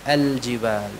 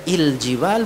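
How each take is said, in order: First: The word begins with an a vowel. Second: The word begins with an i vowel. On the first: The speaker calls it right. "kalau kita memulainya dengan fathah ini al-jibal" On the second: The speaker calls it wrong. "bukan il-jibal"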